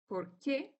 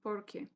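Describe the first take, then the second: First: The stress is on the second syllable. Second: The stress is on the first syllable. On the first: It asks why. "for asking questions, we say por qué" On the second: It means because. "there is no stress, but it's kind of here on the O"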